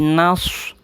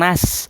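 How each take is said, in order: First: The s is heavy, with lips pushed forward. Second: The s is plain, with unrounded lips. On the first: The speaker calls it right. "Tapi nas. Gitu ya. Agak sedikit dimonyongkan bibirnya ya" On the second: The speaker calls it wrong. "Bukan nas"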